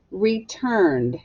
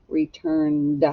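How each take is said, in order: First: Said in the usual way. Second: "Returned" drawn out with a separate d at the end; final sound emphasized. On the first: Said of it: "Echo me". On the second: Shown as a demonstration. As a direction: release the final d of Returned distinctly. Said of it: "what do you hear at the end".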